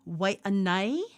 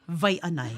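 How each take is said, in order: First: The name begins with a W sound. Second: The name begins with a V sound. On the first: This is how people actually say it. "Some people will say" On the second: Nobody actually says it this way. "nobody ever says"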